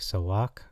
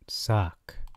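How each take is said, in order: First: The word is said as two syllables. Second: The word is said as one short syllable. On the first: The speaker calls it right. "it's actually pronounced sawak" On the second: The speaker calls it wrong. "No, not socks that you wear"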